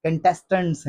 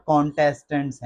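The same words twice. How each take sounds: First: कंटेस्टेंट्स as kun-TES-tunts; short first vowel in कंटेस्टेंट्स; correct pronunciation. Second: कॉन्टेस्टेंट्स as KON-tes-tunts; wrong pronunciation. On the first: (कंटेस्टेंट्स सही, कन से शुरू) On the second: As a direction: open O starting कॉन्टेस्टेंट्स. (कॉन्टेस्टेंट्स ग़लत, कॉन से शुरू) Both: Shown as a demonstration. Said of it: "not कॉन्टेस्टेंट्स".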